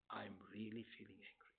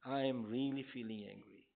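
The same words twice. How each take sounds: First: Hushed, calm whisper of the feeling; name your anger in a soft, calm whisper. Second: Calm, steady, spoken aloud, softer and lower. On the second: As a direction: state the anger plainly and calmly. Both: Shown as a demonstration. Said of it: "It's a very calm voice".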